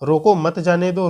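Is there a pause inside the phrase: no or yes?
no. It is read straight through without a pause. "अगर हम simple तरीके से पढ़ेंगे तब"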